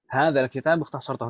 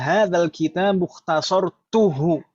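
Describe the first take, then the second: First: The vowel before the final 'hu' is 'a'. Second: The vowel before the final 'hu' is 'u'. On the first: You have summarized this book. The speaker calls it wrong. "sampai mengucapkan saja salah" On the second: I have summarized this book. The speaker calls it right. "Tadi kan aslinya"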